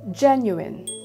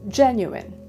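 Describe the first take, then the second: First: The stress is on the first syllable. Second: The same.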